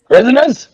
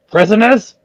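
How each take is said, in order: First: Sharp, higher barked question; angry demand. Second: Higher shouted question; shouting. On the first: Varric angrily demands of the terrified guards. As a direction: glare and demand it. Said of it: "kind of look angry at them and go". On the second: Varric shouts at the collapsed guards. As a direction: call it out at them. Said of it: "kind of shouts at them". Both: Acted.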